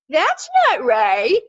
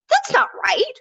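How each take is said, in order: First: It is said in a mocking, sarcastic tone. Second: It is said in a genuinely angry tone. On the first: The speaker is ridiculing the statement. "that's the sort of mocking. Um, you see the SpongeBob meme" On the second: The speaker is truly upset. "actual genuine emotion. Um, sort of angry"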